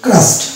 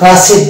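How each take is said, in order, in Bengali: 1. শেষের অংশটি কোনো অতিরিক্ত সিলেবল ছাড়াই শব্দের সাথে যুক্ত হয়। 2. শেষের অংশটি একটি অতিরিক্ত সিলেবল হিসেবে উচ্চারিত হয়। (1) "এটা হচ্ছে ক্রাস্ট" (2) "এখানেও কিন্তু ক্রাসেড নয়"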